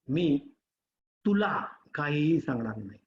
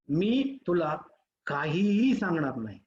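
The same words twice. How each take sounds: First: The stress is on तुला. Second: The stress is on काहीही.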